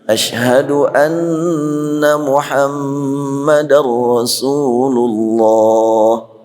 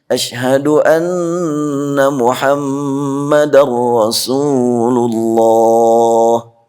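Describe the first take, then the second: Both takes have the same delivery.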